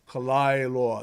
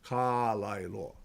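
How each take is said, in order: First: The opening 'ka' is passed over quickly. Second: The opening 'ka' is given fuller weight. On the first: The speaker calls it right. "we skip over the ka" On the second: The speaker calls it wrong. "instead of"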